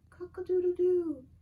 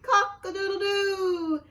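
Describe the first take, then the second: First: It is said softly. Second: It is said very loudly.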